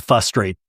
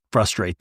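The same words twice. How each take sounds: First: "frustrate" without its first r, as "fustrate"; mispronounced frustrate. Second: Said in the usual way. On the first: Retold or imitated. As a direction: imitate the slip in "frustrate": "fustrate". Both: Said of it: "you can't say the word frustrate".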